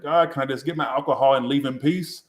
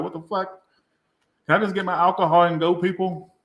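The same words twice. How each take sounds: First: Said in the usual way. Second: Higher, exasperated mock plea. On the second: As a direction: act fed up with the pestering crowd. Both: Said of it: "I'm like".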